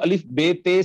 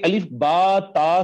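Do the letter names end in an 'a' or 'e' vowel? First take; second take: e vowel; a vowel. First: The letter names end in an 'e' vowel. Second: The letter names end in an 'a' vowel. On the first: The speaker calls it wrong. "नहीं कहना" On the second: The speaker calls it right. "बल्कि अलिफ बा ता सा कहना है"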